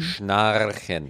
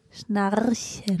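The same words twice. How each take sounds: First: Schnarchen, R nearly there; almost R. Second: Schnarchen slowly, the R rolled; slow careful R. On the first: Real, not acted. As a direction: Schnarchen soft, R almost formed. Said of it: "Ja, fast". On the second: Shown as a demonstration. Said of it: "Komm, ganz langsam".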